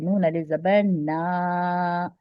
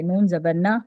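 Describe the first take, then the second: First: नून अलिफ ज़बर ना with ना drawn out long, slow; stretched naa. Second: नून ज़बर ना with ना kept short, no stretch. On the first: Teacher demonstrates the long alif to students. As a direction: hold the ना for one finger count. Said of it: "एक उंगली बराबर खींच के पढ़ते हैं". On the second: Teacher shows the short vowel to students. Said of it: "इसको खींचकर नहीं पढ़ते". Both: Shown as a demonstration.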